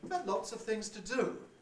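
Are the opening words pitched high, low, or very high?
very high. The opening words are extremely high, near falsetto. "almost into falsetto"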